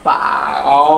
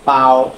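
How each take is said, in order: First: The syllable is said with a changing pitch. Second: The syllable is said on a flat pitch. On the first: It means having a full stomach. "আর এটা হচ্ছে third tone" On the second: It means a bag. "এই টোনটা হচ্ছে first tone"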